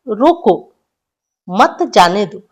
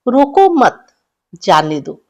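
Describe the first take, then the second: First: The pause comes after the word 'roko'. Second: The pause comes after the word 'mat'. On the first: Stop him; do not let him go. "इसको बोल सकते हैं" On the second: Do not stop him; let him go. "हम इस sentence को ऐसे बोल सकते हैं"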